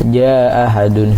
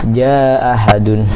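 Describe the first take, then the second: The two takes are said the same way.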